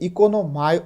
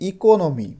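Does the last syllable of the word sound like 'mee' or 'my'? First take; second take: my; mee. First: The word ends with a 'my' diphthong sound. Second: The word ends with a short 'mee' sound. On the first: The speaker calls it wrong. "এটা কিন্তু ইকোনোমাই উচ্চারণ হয় না" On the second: The speaker calls it right. "বলা হচ্ছে ইকোনমি"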